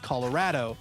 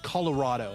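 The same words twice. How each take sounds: First: Colorado is pronounced the way Colorado locals say it. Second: Colorado is pronounced the way New Yorkers say it. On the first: This is how people from the state say the name. "That's what we say" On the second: This is how outsiders expect the name to sound. "they'd be like, "You're lying. It's Colorado.""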